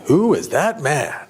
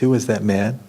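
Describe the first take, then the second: First: It is said in a showy, dramatic tone. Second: It is said in a plain, curious tone. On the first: She is excited and charmed by the man. "was it flamboyant?" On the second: She simply wants to know who he is. "Was it just curious?"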